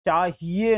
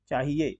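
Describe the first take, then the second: First: चाहिए as "chaa-hee-ye"; wrong long ee. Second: चाहिए as "chaahiye", quick middle; short i. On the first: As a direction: stretch the middle of चाहिए. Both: Shown as a demonstration. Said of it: "चाहिए नहीं".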